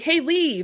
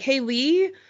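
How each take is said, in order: First: The voice is firmer and falls at the end. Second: The voice is softer and rises at the end. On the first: It is addressed to a man. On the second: It is addressed to a woman.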